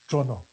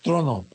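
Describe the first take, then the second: First: The word is said with a Costa Rican accent. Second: The word is said with a standard accent. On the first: "Es más fácil decirlo como los costarricenses" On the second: "Pero es trono"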